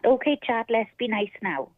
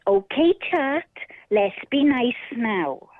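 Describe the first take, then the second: First: It is said in a plain, ordinary voice. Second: It is said in a warm, motherly voice. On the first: The speaker calls it wrong. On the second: The speaker calls it right.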